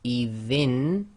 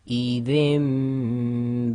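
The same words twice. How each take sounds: First: The final nasal is a clear n sound. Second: The final nasal becomes a nasalized m sound. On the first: The speaker calls it wrong. "instead of saying" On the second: The speaker calls it right. "with iqlab we do ghunna, we have to say"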